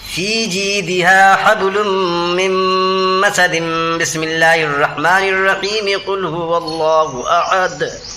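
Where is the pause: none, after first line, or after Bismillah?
none. All three parts are joined in one breath.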